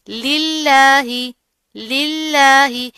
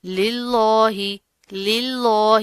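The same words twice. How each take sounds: First: للہ with thin light lam, stretched and louder; light lillah. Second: للہ with thick heavy lam, the wrong way; wrong heavy lillah. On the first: Teacher shows students thin-lam للہ, slow and louder. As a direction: hold للہ long with a thin, stressed lam. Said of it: "اوپر تشدید بھی ہے تو سختی سے بھی ادا کریں گے". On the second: Teacher demonstrates the wrong heavy للہ to students. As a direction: darken the lam in للہ to show the mistake. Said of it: "اس کو آپ نے اس طرح نہیں کرنا". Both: Shown as a demonstration.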